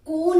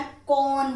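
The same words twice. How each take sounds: First: "कौन" with a closed o, kon; wrong vowel. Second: "कौन" with an open au, kaun; correct vowel. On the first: Teacher showing the error, "कौन" as kon. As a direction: round "कौन" into a narrow kohn. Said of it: "कौन नहीं होता". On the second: Teacher correcting students, "कौन" with open au. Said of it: "कौन होता है". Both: Shown as a demonstration.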